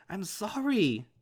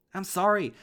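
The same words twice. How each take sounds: First: High, slow, stretched sorry; wailing, slowed apology; drawn-out sobbing apology. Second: Very loud, high sorry; frantic shouted sorry; screamed apology. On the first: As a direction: let the sorry break and drag. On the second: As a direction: yell the apology in panic. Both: Acted. Apologizing to dad, desperate.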